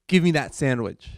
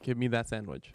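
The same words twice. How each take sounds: First: It is said in an angry tone. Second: It is said in a neutral tone.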